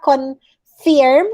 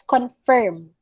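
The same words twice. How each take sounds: First: "confirm" as con-FEERM; long ee in the end of "confirm"; wrong pronunciation. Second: "confirm" slowly as con-FURM; an ER vowel in "confirm", con-furm; correct pronunciation. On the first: Teacher showing the student's mistake, con-feerm. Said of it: "it's not confirm". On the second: Teacher correcting the mistake, slow con-furm. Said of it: "It's confirm". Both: Shown as a demonstration.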